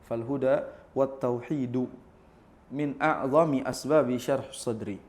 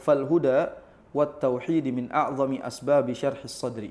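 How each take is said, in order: First: The word tauhid ends with a u vowel. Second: The word tauhid ends with an i vowel. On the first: The speaker calls it right. "Jadi yang benar adalah harokatnya" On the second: The speaker calls it wrong. "Ini harusnya harokatnya salah nih"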